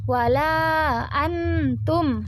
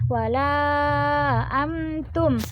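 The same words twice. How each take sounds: First: "wala" with a short two-beat vowel; short chanted "wala"; two-beat mad. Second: "Wala" held a bit longer, four beats; moderately long chanted "Wala"; four-beat mad. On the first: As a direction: say "wala antum" holding the long a for two counts. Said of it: "Boleh kayak". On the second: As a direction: draw out the a in "Wala" for four counts. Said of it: "agak panjang pun boleh". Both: Shown as a demonstration.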